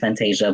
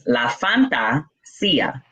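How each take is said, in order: First: The name ends without a clear 'see-ya' sound. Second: The name ends with a clear 'see-ya' sound. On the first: The speaker calls it wrong. "people botch it and they think it's Fantasia" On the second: The speaker calls it right. "It's La Fantasia in Spanish"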